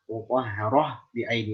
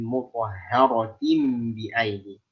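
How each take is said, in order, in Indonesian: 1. Kata pertama berakhir dengan -ah. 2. Kata pertama berakhir dengan -atin. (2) "Bunyikan harokat taknya dan huruf tak itu sendiri"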